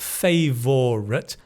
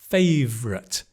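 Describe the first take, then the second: First: It is said with three full syllables. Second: It is said with two syllables, v-r together. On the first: The speaker calls it wrong. "Not favorite" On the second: The speaker calls it right.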